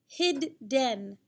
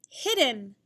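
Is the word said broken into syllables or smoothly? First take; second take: broken; smooth. First: The word has a pause between its syllables. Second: The word has no pause between its syllables. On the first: "Focusing on just the first syllable, hid, and then go to the second syllable, den" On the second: "Put it together"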